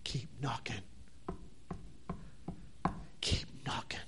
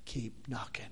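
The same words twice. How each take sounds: First: Whispered repeat, barely voiced. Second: Much softer, lower conclusion. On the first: Preacher closing the sermon, whispering. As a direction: breathe it out as a whisper. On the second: Preacher closing the sermon, quiet and low. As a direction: let it sink in quietly. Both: Real, not acted. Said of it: "the conclusion".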